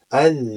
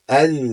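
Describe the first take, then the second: Both takes have the same delivery.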